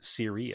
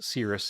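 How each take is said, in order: First: It is said like the star name. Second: It is said like the cloud word. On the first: The speaker calls it right. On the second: The speaker calls it wrong. "it's going to be pronounced Cirrus"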